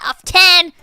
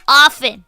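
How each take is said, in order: First: The T sound is pronounced in the middle. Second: The T sound is silent in the middle. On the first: The speaker calls it wrong. "Not often" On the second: The speaker calls it right. "It's often, no T"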